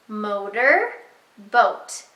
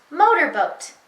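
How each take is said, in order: First: "Motor, boat" split into two parts with a clear pause; paused word parts. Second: "Motorboat" run together as one word; said fast. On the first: Teacher giving the child a turn, "Motor, boat" in two separated pieces. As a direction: say "Motor", stop, then "boat". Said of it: "it tells you to pause". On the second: Teacher showing the blended answer, "Motorboat" said in one go. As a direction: join "Motorboat" up with no pause. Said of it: "Say it fast". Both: Shown as a demonstration.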